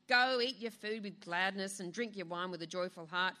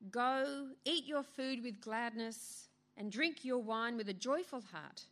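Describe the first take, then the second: First: It is read in a dismissive, resigned tone. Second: It is read in a sincere, earnest tone. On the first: Nothing matters because everyone dies anyway. The speaker calls it wrong. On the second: Life should be enjoyed for what it is. The speaker calls it right.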